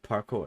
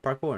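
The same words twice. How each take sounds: First: The opening P is sharp and strongly puffed. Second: The opening P is soft and ordinary. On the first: "enunciating the P" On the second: "Now he just says it regular parkour"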